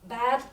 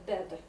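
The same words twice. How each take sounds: First: The vowel is the open sound of bad. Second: The vowel is closer, like in bed. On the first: The speaker calls it right. "not bad" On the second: The speaker calls it wrong. "but bad. This is our common mistake"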